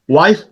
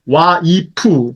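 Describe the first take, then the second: First: It is said with English sounds, without added vowels. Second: It is said Japanese-style, with a vowel after the consonant.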